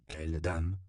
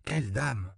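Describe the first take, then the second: First: Said in the usual way. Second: QUELLE lifted high in "Quelle dame?"; "Quelle dame?" asked higher, falling at the end; repeated question. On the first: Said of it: "demanda-t-il". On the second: A narrator's reading. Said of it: "répéta Juan Diego".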